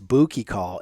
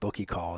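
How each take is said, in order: First: The first vowel is a long 'ooh' sound. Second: The first vowel is a short 'uh' sound. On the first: The speaker calls it right. "give it that ooh" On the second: The speaker calls it wrong. "instead of uh, ugh"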